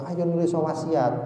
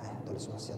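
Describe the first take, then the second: First: It is said in a pushy, hurried way. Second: It is said in a gentle, unhurried way. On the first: The sick person is being forced to act. The speaker calls it wrong. "jangan dipaksa" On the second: The sick person is being encouraged kindly. The speaker calls it right. "tapi pelan-pelan"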